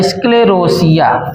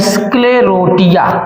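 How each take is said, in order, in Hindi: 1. शब्द 'ia' से पहले 's' ध्वनि पर समाप्त होता है। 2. शब्द 'ia' से पहले 't' ध्वनि पर समाप्त होता है। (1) "रोसिया भी पढ़ सकते हैं" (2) "रोटिया भी पढ़ सकते हैं"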